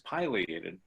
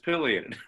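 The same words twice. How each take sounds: First: It is said with the English pronunciation. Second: It is said with the Latin pronunciation. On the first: "the English pronunciation is pileated" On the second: "if you pronounce it in Latin, it's pileated"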